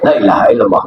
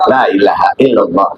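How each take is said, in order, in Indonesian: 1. Dibaca dengan tempo cepat. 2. Dibaca dengan tempo sedang. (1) "Dibaca sikap, boleh aja" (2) "Dibaca sedang"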